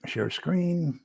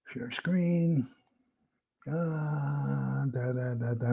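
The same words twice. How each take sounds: First: Said in the usual way. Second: Unvoiced whisper, much softer. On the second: Real, not acted. Still fumbling with the screen share, a whispered aside. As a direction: breathe it to yourself. Muttering while setting up screen.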